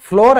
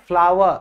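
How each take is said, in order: First: The vowel sounds like the one in 'door'. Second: The vowel sounds like the one in 'power'. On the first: The speaker calls it wrong. "बेटा फ्लोर नहीं है" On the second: The speaker calls it right. "फ्लावर जो फूल होता है ना उसकी और इसकी प्रोनाउंसिएशन सेम है"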